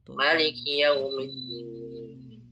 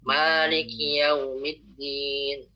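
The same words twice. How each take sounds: First: The first vowel of Maliki is kept short. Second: The first vowel of Maliki is drawn out long. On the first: "dibaca pendek" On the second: "baca panjang"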